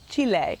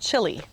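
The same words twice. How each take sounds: First: It is said with a native-style pronunciation. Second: It is said with an English-style pronunciation. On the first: This is the version the speaker knows now. The speaker calls it right. "I know now it's Chile" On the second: This is the version learned as a child. The speaker calls it wrong. "when I was a child, I learned that ... there's a little country called Chile"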